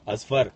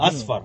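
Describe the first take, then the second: First: It is said with an Indian accent. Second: It is said with an Arab accent.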